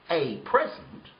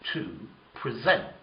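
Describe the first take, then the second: First: The stress is on the first syllable. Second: The stress is on the second syllable.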